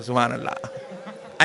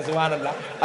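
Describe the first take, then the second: First: Low, slow, drawn-out सुभान अल्लाह with long aa; respectful praise. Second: Said in the usual way. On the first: Shown as a demonstration. Preacher shows the crowd the polite way, reverent. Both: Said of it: "अच्छा करे तो बोले से".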